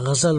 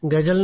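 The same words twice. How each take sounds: First: It begins with a throaty 'gh' and 'z' sound. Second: It begins with a hard 'g' and 'j' sound. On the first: The speaker calls it right. "होता है" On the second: The speaker calls it wrong. "नहीं होता है"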